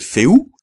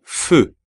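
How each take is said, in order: First: Feu with e and u sounded apart; wrong feu. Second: Feu with rounded French eu vowel; French feu, lips rounded; right feu. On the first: Teacher shows the wrong feu. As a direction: feu said Spanish style, fe-u. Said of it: "no hay que decir feu". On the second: Teacher models the correct feu. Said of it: "sino feu". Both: Shown as a demonstration.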